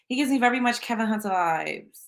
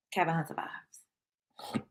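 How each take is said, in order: First: Said in the usual way. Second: Whisper. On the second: Shown as a demonstration. Repeats the line as a whisper.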